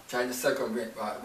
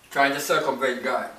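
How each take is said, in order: First: Repeated much softer, "Trying" still leaning forward; soft echo. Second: Said in the usual way. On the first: Shown as a demonstration. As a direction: let it fall away, softer the second time. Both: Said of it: "repeated softer".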